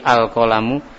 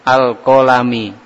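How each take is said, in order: First: The word ends with a 'u' vowel. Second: The word ends with an 'i' vowel. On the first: The speaker calls it right. "al-kolamu itu dibaca dhommah" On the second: The speaker calls it wrong. "Itu amat sangat fatal salahnya ya"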